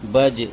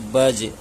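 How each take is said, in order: No difference in how they are said.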